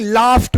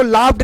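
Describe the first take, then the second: First: Crisp t ending on लाफ्ट; correct pronunciation demo. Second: D ending on लाफ्ड; wrong pronunciation demo. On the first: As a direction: say लाफ्ट as laaft. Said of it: "बोलेंगे". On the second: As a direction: say लाफ्ड as laafd. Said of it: "इसको लाफ्ड नहीं". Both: Shown as a demonstration.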